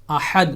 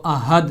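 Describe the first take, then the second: First: احد with ح from the middle of the throat, aħad; correct Ahad. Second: احد with a plain light ہ, ahad; wrong Ahad. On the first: Teacher shows viewers correct احد, throaty ح. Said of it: "صحیح pronunciation کے ساتھ ادا کیا جائے گا". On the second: Teacher shows viewers the wrong احد, light ہ. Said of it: "اگر اسی کو دوسری ہا کے ساتھ پڑھا جائے". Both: Shown as a demonstration.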